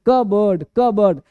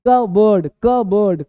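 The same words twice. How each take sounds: Both takes have the same delivery.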